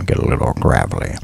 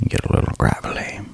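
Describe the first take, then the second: First: Much lower, rough gravelly "get a little gravelly"; gravelly Morgan Freeman voice. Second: Soft whispered "get a little gravelly". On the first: Actor showing viewers his Freeman gravel, gravelly and low. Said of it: "grind them down a little bit". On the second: ASMR viewers hear the gravel line again, whispered. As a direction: breathe it out as a whisper. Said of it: "go down low into my chest". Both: Shown as a demonstration.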